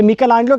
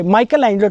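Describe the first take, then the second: First: मिकेलांजेलो said the Italian way, opening "mee-kel"; Italian pronunciation. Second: माइकल एंजेलो opening with English "Michael"; common non-Italian pronunciation. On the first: Telling viewers what Italians call the painter, मिकेलांजेलो pronounced Italian-style as "Mee-kel-anjelo". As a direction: say मिकेलांजेलो with "Mi-kel", not English "Michael". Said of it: "इसका सही pronunciation है". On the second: Showing viewers how other people say it, माइकल एंजेलो pronounced with an English "My-kel". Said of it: "बाकी लोग इसे". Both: Shown as a demonstration.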